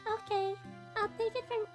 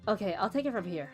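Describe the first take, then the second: First: It is said in Cinnamon's character voice. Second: It is said in a different character's voice.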